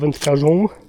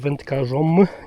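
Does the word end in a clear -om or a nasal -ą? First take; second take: nasal -ą; clear -om. First: The ending is pronounced as a nasal -ą. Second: The ending is pronounced as a clear -om. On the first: The speaker calls it wrong. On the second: The speaker calls it right. "dobrze usłyszeliście"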